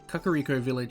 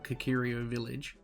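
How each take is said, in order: First: The name is said as Ka-ka-ri-ko. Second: The name is said as Ka-ki-ri-o. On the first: The speaker calls it right. "I'm trying to pronounce them correctly" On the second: The speaker calls it wrong. "I used to just call Kakirio Village"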